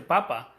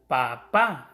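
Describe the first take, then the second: First: "papa" with the first pa stressed, last a light; stress on first syllable. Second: "papá" with a loud, punched final á; stress on second syllable. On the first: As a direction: say "papa" without accenting the final a. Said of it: "si no lo lleva dice papa". ("papa" con acento en la primera sílaba) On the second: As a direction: hit the last syllable of "papá". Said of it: "lleva el acento en la segunda A". ("papá" con acento fuerte en la segunda a) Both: Shown as a demonstration.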